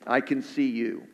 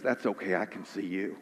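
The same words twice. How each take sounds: First: Said in the usual way. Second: A hushed, lower, reassuring dad; father calming his son at the window, hushed and tender; gentle father. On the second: Retold or imitated. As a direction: soothe a frightened boy softly. Father reassures scared son, story.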